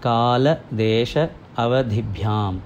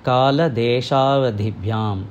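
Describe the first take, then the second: First: The words are kept separate at their joins. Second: The words are merged together at their joins. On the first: "முதல் தடவை சொல்கிற போது பிரித்து" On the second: "அதை சேர்ந்து சொல்கிற போது"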